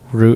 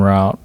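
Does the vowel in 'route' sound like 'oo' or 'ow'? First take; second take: oo; ow. First: The vowel sounds like 'oo' in boot. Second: The vowel sounds like 'ow' in out. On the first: "R O O T" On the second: "R O W T"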